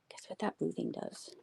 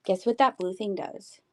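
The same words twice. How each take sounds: First: Much softer, almost to herself; softer repeat. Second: Said in the usual way. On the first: Shown as a demonstration. Streamer repeats her teaser to viewers under her breath. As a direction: murmur the question again quietly.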